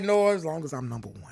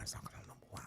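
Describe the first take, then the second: First: Said in the usual way. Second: "As long as I'm number one" in a breathy whisper with no voice. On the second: Real, not acted. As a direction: whisper it like a secret to yourself. Repeats line, then whispers it.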